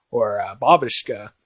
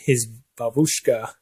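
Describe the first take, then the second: First: Babushka with the stress on the first syllable, BA; corrected stress. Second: Babushka with the stress on the middle syllable, bu; stress on the wrong syllable. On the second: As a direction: say babushka as buSHka in the middle, the way Jack says it. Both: Shown as a demonstration. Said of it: "he corrected him on his pronunciation".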